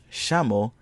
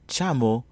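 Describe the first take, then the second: First: The word begins with an 'sh' sound. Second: The word begins with a 'ch' sound. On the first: The speaker calls it right. "If you pronounced it as chameau ... then you are correct" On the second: The speaker calls it wrong. "and not as chamo"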